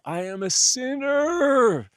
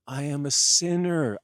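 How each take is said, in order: First: Much higher, louder, stretched-out anguished cry of sinner; wailing confession. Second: Loud confession. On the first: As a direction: wail it out in hammed-up despair. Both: Acted. Jesus denies being Messiah.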